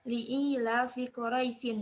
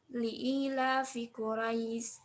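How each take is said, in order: First: The last word ends with an added 'in' sound. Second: The last word stops short without the 'in' sound. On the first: The speaker calls it wrong. "bukan li'ila fi Quraisyin, bukan seperti itu" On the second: The speaker calls it right. "kalau misalkan kita mau berhenti, itu dibacanya"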